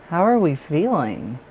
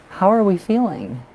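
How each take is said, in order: First: Said in the usual way. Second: Higher questioning. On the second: Real, not acted. Asks client, repeats.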